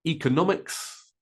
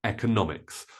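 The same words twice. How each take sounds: First: Economics as EE-kuh-NOM-iks; long E, stressed NO. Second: Economics as EK-uh-NOM-iks; short E, stressed NO. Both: Shown as a demonstration. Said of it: "I stress the no".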